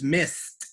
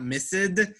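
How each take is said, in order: First: The word ends with a clear T sound. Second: The word ends without a clear T sound. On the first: The speaker calls it right. "missed with a T sound" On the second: The speaker calls it wrong. "is not missed"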